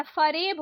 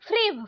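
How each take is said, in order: First: फरेब opened out as "fa-reb"; short vowel between f and r in फरेब; correct pronunciation. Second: फ्रेब run together as "freb"; no vowel between f and r in फ्रेब; wrong pronunciation. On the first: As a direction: say फरेब in two syllables. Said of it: "फ्रेब नहीं होता". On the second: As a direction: say फ्रेब in one syllable. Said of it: "फरेब होता है". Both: Shown as a demonstration.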